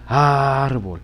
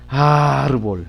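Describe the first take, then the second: First: The stress is on the first syllable. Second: The same.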